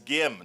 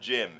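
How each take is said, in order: First: The name begins with a hard G sound. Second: The name begins with a J sound. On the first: The speaker calls it right. "It's Gim" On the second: The speaker calls it wrong. "not Jim"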